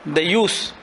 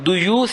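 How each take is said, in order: First: The first vowel sounds like 'a'. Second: The first vowel sounds like 'u'.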